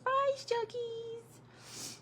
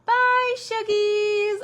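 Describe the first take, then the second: First: Put-on high, slow, soft child's voice; sweet little voice. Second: Put-on high, loud little child's voice; toddler saying bye. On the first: Grandma recalling her grandson's goodbye, high and soft. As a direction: coo it like a tiny grandson. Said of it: "His sweet little voice". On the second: Grandson calling goodbye to his Shuggies, high and bright. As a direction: chirp it like a tiny grandson. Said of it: "the first time he was like".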